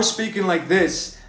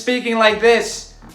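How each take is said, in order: First: The voice is deep and throaty, from the chest. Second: The voice is normal, with a raised larynx. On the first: The speaker calls it right. "almost like a like a Kermit sound" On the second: The speaker calls it wrong. "speaking in your normal voice"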